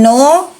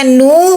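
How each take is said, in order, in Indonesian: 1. Vokalnya adalah bunyi o yang dibulatkan. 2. Vokalnya adalah bunyi u yang dibulatkan. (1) "bukan no" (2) "Nun doma bunyinya nu"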